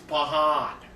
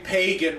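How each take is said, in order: First: The middle consonant is a breathy h sound. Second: The middle consonant is a hard g sound. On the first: This is how his Spanish-speaking people would say the name. "when it comes to him, it's Pahan" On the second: This is the ordinary, non-Spanish way of saying the name. "I could say Pagan regularly"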